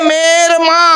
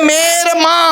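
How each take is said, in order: Both takes have the same delivery.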